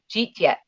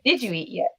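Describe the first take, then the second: First: The phrase is squeezed into two syllables. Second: Every word of the phrase is said in full. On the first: "my extended family, they'll cheat yet instead of did you eat yet" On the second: "instead of did you eat yet"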